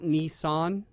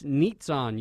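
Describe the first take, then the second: First: The name has a plain s sound, no t. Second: The name has a t sound before the s. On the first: The speaker calls it wrong. "it's not Nissan, the car" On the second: The speaker calls it right. "You got to use the T"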